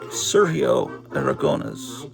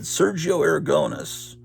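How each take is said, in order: First: The name is pronounced with Spanish sounds. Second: The name is pronounced with English sounds. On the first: The speaker calls it right. "How do you actually pronounce that in Spanish? And she taught me" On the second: The speaker calls it wrong. "I always just said"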